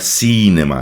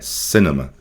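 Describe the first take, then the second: First: The first vowel is a long 'ee' sound. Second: The first vowel is a short 'i' sound. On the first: The speaker calls it wrong. "Não é cinema" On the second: The speaker calls it right. "um I com som mais ou menos de E"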